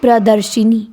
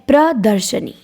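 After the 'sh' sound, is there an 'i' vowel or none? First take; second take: i vowel; none. First: An extra i vowel follows the sh sound. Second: No vowel comes between the sh and n sounds. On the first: The speaker calls it wrong. "वो गलत है" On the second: The speaker calls it right. "प्रदर्शनी सही होता है"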